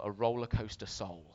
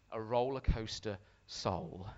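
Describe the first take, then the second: First: Said in the usual way. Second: Slow, weighty title with "Soul" drawn out; deliberate repeat. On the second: Real, not acted. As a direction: let "Roller Coaster" and "Soul" land separately.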